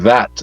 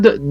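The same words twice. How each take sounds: First: The word starts with a soft TH sound. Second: The word starts with a hard D sound. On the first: "instead of saying that" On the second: "is almost like a D A T instead of a T H A T"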